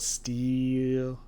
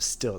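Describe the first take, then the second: First: The vowel is a long 'ee' sound. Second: The vowel is a short 'i' sound. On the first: "it was like steel, like S T E A L" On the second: "Instead of still"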